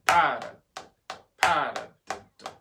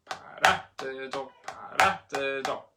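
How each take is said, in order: First: PA of Paradiddle punched loud; accent on first syllable. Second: RA of paradiddle punched; light pa, strong RA in paradiddle; accent on second syllable. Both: Shown as a demonstration. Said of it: "accent number one and number two".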